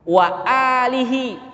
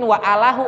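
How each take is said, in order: First: The vowel after the l is i. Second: The vowel after the l is a. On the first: The speaker calls it right. "Ini baca alihi" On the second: The speaker calls it wrong. "enggak mungkin wa alahu"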